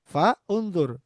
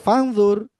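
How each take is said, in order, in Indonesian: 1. Kedua kata ini diucapkan terpisah. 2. Kedua kata ini disambung jadi satu. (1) "kalau dipisah" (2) "di wasol"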